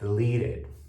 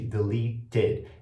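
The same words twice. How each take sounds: First: The middle consonant is a quick R-like tap. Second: The middle consonant is a clear T sound. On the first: "eu acabo fazendo um som de R no T" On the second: "ao invés de fazer o som de deleted"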